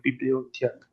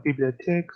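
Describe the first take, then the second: First: "bibliothèque" as spoken slowly, with a long O; careful, clearer form of "bibliothèque"; slow pronunciation. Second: "bibliothèque" as spoken quickly; quick, reduced form of "bibliothèque"; quick pronunciation. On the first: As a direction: give "bibliothèque" its full O vowel. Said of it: "when sounds spoken slowly". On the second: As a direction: say "bibliothèque" with the middle vowel passed over quickly. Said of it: "when spoken quickly". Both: Shown as a demonstration.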